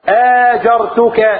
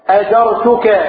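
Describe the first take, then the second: First: The middle consonant is held long and doubled. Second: The middle consonant is short and single. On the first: I hired you as a worker. The speaker calls it wrong. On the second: I grant you protection. The speaker calls it right.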